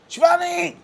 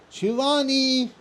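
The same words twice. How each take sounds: First: The name is called louder and higher in pitch. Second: The name is called at a softer, lower level. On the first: The person called is not listening. "the level going up, tones going up" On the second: A first, ordinary call. "that means I'm calling"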